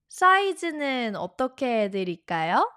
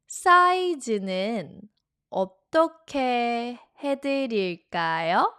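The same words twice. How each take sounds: First: The question is spoken quickly. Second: The question is spoken more slowly.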